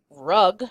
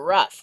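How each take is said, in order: First: The word ends with a hard g sound. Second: The word ends in an f sound. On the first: The speaker calls it wrong. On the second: The speaker calls it right.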